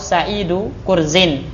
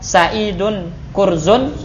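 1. Yang pertama berakhiran -u, yang kedua berakhiran -in. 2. Kedua kata benda berakhiran -un. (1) "sebagai mudhaf ilaih" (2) "Kurzun sebagai badal"

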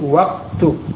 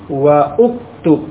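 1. Wa langsung bersambung ke ktub tanpa hamzah. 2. Ada hamzah dan vokal yang memisahkan wa dari ktub. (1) "Wawu langsung ke kafnya" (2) "Bukan wa'uktub. Bukan seperti itu"

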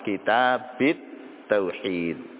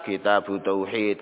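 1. Kata pertama berakhir dengan vokal i. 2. Kata pertama berakhir dengan vokal u. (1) "Boleh juga dibaca jar, dikasrahkan" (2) "dibaca dengan dhammah"

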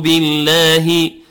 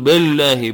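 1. الحركة الأولى 'i' واضحة. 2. الحركة الأولى مفتوحة نحو 'a'. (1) "نقول بي بالكسر" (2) "با يفتحها قليلا، وهذا من أخطاء التجويد"

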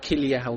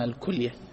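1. الحركة الأولى هي صوت 'i'. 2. الحركة الأولى هي صوت 'u'. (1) "الدارج أن يقال كلية" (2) "الصحيح ضم الكلية"

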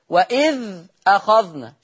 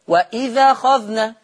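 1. تُنطق الهمزة قبل الكلمة الثانية. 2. تُحذف الهمزة، وتنتقل حركتها إلى الحرف الساكن قبلها.

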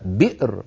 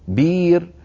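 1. تأتي الهمزة بعد الحرف الصامت الأول. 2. حرف مد يحل محل الهمزة. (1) "جربوا هكذا بئر، وانظروا كم هي ثقيلة الهمزة" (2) "يقولون بير بير"

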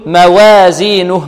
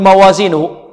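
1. الفتحة بعد الواو تميل إلى صوت الكسرة. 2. مقطع الواو ثقيل ومفخم. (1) "يريد أن يرقق الواو ... لا هذه إمالة" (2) "بعض الطلاب يقول موازينه خطأ"

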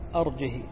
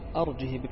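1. الهاء الأخيرة تليها كسرة قصيرة. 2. الهاء الأخيرة تليها كسرة قصيرة.

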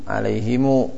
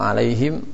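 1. Kata ini berakhir dengan -himu, dengan tambahan u. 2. Kata ini berakhir dengan -him, tanpa vokal akhir. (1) "silah الميم ... pada alaihimu" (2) "Banyak qiraat di sana"

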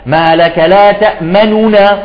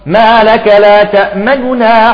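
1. تُنطق حركة الضمة كاملة وواضحة. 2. بالكاد تُلمح حركة الضمة، خفيفة جدا. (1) "ومن الخطأ أن تعطي ضمة كاملة" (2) "ضمة بسيطة جدا حتى تبين للسامع أن أصل هذه الكلمة ضمة"

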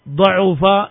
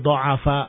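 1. Vokal tengahnya u. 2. Vokal tengahnya a. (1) "Kakaruma dibaca da'ufa yad'ufu" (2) "Tapi bisa pula dibaca nasara. Berarti da'afa"

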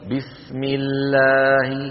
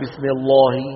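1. ألف المد تُنطق رقيقة وخفيفة. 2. ألف المد تُنطق مفخمة وثقيلة. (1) "هذه أمثلة للترقيق" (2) "ولا نقول بسم الله مثلا"

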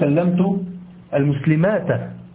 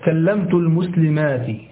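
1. تنتهي الكلمة الأخيرة بالحركة a. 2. تنتهي الكلمة الأخيرة بالحركة i. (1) "لا تقول" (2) "جمع المؤنث السالم ينصب بالكسرة. تقول مثلا"

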